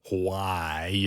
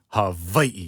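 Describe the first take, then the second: First: The middle consonant is a strong English w. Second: The middle consonant is a hard v. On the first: "It's like extra English W sound" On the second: "it's like a very hard V"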